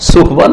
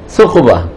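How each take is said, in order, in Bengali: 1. প্রথম ধ্বনিটি সাধারণ s। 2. প্রথম ধ্বনিটি t ও s-এর মাঝামাঝি। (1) "সুকবা না, স নয়" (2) "তা আর সায়ের মাঝামাঝি"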